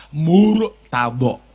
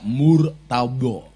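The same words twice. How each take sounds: First: "Murtado" drawn out slowly with Arabic letter articulation; Arabic pronunciation. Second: Said in the usual way. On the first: Shown as a demonstration. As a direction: say "Murtado" with precise makhraj, lips forward. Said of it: "Cara pengucapannya dengan menggunakan makhorijul huruf yang pas". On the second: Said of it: "Cara pengucapannya dengan menggunakan makhorijul huruf".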